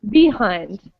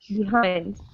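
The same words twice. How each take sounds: First: The stress is on the first syllable. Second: The stress is on the second syllable. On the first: The speaker calls it wrong. "imagine we stress the first syllable. It would sound like behind" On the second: The speaker calls it right. "We stress the second syllable and say behind"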